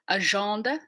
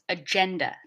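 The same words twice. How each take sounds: First: It begins with a soft zh sound. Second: It begins with a hard j sound. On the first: "that je is the main difference" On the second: "the j is harder"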